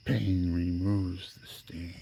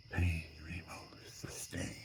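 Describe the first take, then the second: First: Said in the usual way. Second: Hushed, slow, ghostly whisper; whispered inner voice. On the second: Retold or imitated. The voice in the background whispering to him, slow and eerie. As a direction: breathe it like a voice in your head. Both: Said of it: "The voice in the background says".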